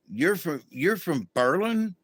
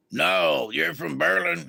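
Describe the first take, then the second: First: Lightly voiced sergeant, asking higher; sergeant's way of talking. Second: Lightly voiced sergeant, settling it; a touch of the sergeant's firm correction; sergeant's way of talking. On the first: Sergeant asking the new inmate where she's from, lightly imitated with a rising question. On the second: Sergeant correcting the inmate about her hometown, lightly imitated as a flat statement. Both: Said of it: "He talked like this all the time".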